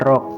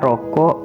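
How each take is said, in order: First: The word is cut to one syllable. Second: The word is said in full, with two syllables.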